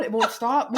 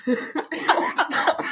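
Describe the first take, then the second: First: Said in the usual way. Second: It won't stop stretched very slow through laughter; laughing. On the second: Real, not acted. Sister still burning, moaning It won't stop while laughing.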